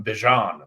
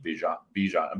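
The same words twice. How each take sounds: First: "Bijan" with an accent, firmly landed; "Bijan" pronounced deliberately with its accent; name said with the accent. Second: Said in the usual way. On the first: Shown as a demonstration. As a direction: put the accent on "Bijan", a bit louder. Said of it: "That's how you say it with the, with the accent". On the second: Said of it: "That's how you say it".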